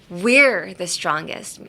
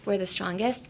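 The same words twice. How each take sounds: First: The stress falls on the word we're. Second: No word is stressed more than another. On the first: "would focus on us" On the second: "without any emphasis on anything"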